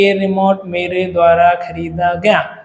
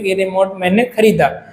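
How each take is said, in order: First: Slow, droning demonstration; slow monotone, word after word; boring. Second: Brisk, simple statement; quick, easy. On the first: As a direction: drag it out to sound boring. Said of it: "तो कितना boring हो रहा है ना". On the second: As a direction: say it straight off in one easy go. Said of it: "एकदम मैंने फटाक से बोल दिया इजी वे में". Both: Shown as a demonstration.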